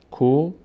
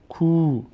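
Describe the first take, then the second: First: کو as "ko", short o; short vowel. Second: کو as drawn-out "kuu"; long vowel. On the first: Teacher repeats the contrast, short "ko". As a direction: keep the o in کو brief. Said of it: "فرق بین ضمه و صدای کشیده". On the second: Teacher repeats the contrast, long "kuu". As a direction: hold a long oo in کو. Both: Shown as a demonstration.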